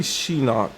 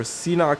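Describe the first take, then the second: First: "Sheenock" opened with a sh sound, like "she-nock"; sh pronunciation. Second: "Seanock" opened with a plain s, like "see-nock"; s pronunciation. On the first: Card reviewer weighing two readings of a name, sh pronunciation. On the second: Card reviewer weighing two readings of a name, s pronunciation. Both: Shown as a demonstration. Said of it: "it could be Sheenock or Seanock".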